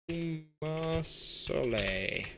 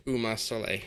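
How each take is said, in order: First: "Umar Soleil" very slow and higher; drawn-out name. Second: Said in the usual way. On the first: Real, not acted. Streamer repeating a player's name, "Umar Soleil" drawn out slowly. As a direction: stretch out every syllable of "Umar Soleil".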